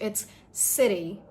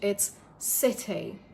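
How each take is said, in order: First: The T sounds like a soft D. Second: The T is a clear, true T. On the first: "in American English" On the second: "In British English"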